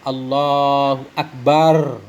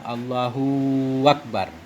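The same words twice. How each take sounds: First: The ba syllable of Akbar is drawn out. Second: The hu syllable of Allahu is drawn out. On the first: "ba akbarnya panjang" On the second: "seolah-olah panjang hu-nya"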